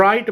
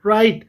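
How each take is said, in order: First: "राइट" with the silent W wrongly sounded; wrong pronunciation. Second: "राइट" starting straight on the R; correct silent W. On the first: Teacher showing pupils the mistake, "राइट" mispronounced with a W. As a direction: say "राइट" as "w-rite", starting on a W. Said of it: "जो कि गलत है". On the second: Teacher modelling for pupils, "राइट" pronounced with the W silent. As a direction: say "राइट" with no W sound. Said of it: "डब्ल्यू नहीं पढ़ते". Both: Shown as a demonstration.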